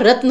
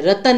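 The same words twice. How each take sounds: First: रत्न, no vowel between त and न; clustered त्न in रत्न; रत्न with half त. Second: रतन, vowel added between त and न; wrong रतन with extra vowel; रतन with full त. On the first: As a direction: join त straight to न in रत्न. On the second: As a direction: split त्न into त-न in रतन. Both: Shown as a demonstration. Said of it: "रतन नहीं होता".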